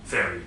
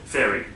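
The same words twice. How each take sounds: No difference in how they are said.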